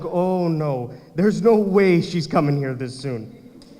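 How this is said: The voice sounds fearful and alarmed. It is dread at her arrival. The speaker calls it right.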